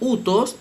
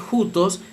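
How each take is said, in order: First: The word begins directly with a vowel. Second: The word begins with a breathy h sound. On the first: "pero utos según la pronunciación reocliniana" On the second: "se lee jutos según la pronunciación erasmiana"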